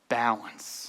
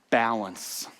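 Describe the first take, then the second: Both takes have the same delivery.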